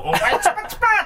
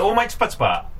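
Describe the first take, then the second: First: The phrase is said in a lively, emphatic way. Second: The phrase is said in a flat, level way. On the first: The speaker calls it wrong. "とかじゃなしに" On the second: The speaker calls it right. "平坦な"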